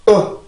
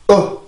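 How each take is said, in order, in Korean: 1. 모음이 긴장되고 목이 막힌 듯 시작해요. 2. 모음이 긴장되고 목이 막힌 듯 시작해요.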